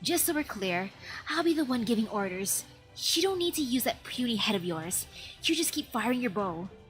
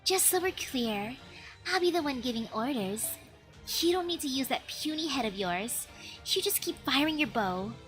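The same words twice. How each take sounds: First: It is said in a manlier voice. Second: It is said in a girly voice.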